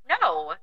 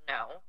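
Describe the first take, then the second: First: Blunt no. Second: "No." said lower and softer, understated; quiet no. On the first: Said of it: "I didn't say it like that". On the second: Refusing the boss's apology, quiet lower no. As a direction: drop the "No." low and soft. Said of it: "I said". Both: Shown as a demonstration.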